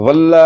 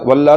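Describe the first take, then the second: The two takes are said the same way.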